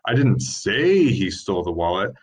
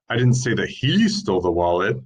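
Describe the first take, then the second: First: The word "say" carries the main stress. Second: The word "he" carries the main stress. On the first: The message was not conveyed out loud. "That means that you didn't convey the message orally" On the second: Someone else stole it. "could mean someone else stole it"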